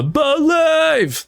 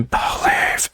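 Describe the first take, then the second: First: High, soaring sung believe; sung, belt "believe" out high and anguished; sung with angst. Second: Breathy intimate believe. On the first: Sung, singer demonstrating how the song goes. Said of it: "is sung with much more, like, um, angst". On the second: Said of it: "instead of it being". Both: Shown as a demonstration.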